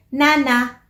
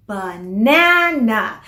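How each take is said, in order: First: "nana" without the opening ba; toddler's shortened "nana"; first syllable dropped. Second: "Banana" drawn out slowly on NA; ba-NAA-na, long middle syllable; slow "Banana", weight on the middle; stress on second syllable. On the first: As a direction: say "nana", weak syllable left off. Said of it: "ang nasasabi lang nila ay". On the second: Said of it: "stressed syllable is the second one". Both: Shown as a demonstration.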